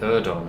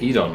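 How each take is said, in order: First: The first syllable differs from the start of Oedipus. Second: The first syllable sounds like the start of Oedipus. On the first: This is how the game's character says it. "he totally said Erdon" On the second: This is how the speaker has always said it. "I've said it Edon my whole life, like like Oedipus"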